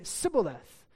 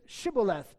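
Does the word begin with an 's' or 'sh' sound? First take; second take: s; sh. First: The word begins with an s sound. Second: The word begins with a sh sound. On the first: This form marks the speaker as an Ephraimite. The speaker calls it wrong. "But he would say" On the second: This is the form the Ephraimites could not say. The speaker calls it right. "they would say to him, say now"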